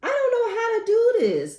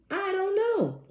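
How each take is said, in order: First: Much higher, louder helpless cry; overwhelmed. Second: High exasperated I don't know. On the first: Reacting to the crying call, high and overwhelmed. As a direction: throw up your hands. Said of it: "overwhelmed reaction". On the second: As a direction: throw up your hands, high. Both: Real, not acted.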